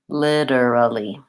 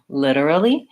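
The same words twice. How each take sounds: First: The word is said slowly and carefully. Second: The word is said at a faster pace.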